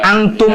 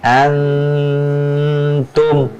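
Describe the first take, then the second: First: The nasal sound is passed over quickly. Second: The nasal sound is held for a while. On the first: The speaker calls it wrong. "jangan hanya uh, antum yeah. aja" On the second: The speaker calls it right. "Dia butuh tempo nahannya"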